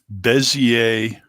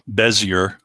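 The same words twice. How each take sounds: First: The word is said with a French pronunciation. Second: The word is said with an English pronunciation. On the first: "That's a French word" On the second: "I don't really mean to say Bezier"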